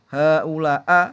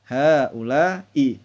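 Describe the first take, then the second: First: The word ends in an a vowel. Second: The word ends in an i vowel. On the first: The speaker calls it wrong. "Tidak boleh dibaca" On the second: The speaker calls it right. "tapi harus"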